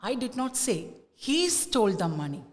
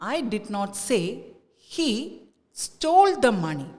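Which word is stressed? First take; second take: he; stole. First: The stress falls on the word he. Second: The stress falls on the word stole. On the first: "the stress is on ഹീ" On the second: "let us give the stress to stole"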